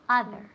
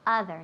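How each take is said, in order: First: The first vowel sounds like an a. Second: The first vowel sounds like an a.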